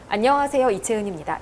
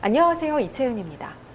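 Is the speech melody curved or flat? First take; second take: flat; curved. First: The pitch stays flat and straight throughout. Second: The pitch rolls up and down in curves. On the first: It can sound curt or direct to listeners. The speaker calls it wrong. "직선형으로 말씀을 많이 하세요" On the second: It sounds softer and gentler to listeners. The speaker calls it right. "동글동글하게 곡선형으로 바꿔주는 거예요"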